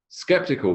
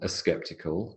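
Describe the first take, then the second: First: The word starts directly with the s sound. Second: A short uh vowel comes before the s.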